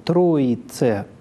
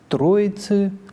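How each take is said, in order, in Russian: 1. Конечный гласный — чёткий звук 'e'. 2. Конечный гласный — редуцированный звук 'y' (ы). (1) "в церковном произношении" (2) "в литературном"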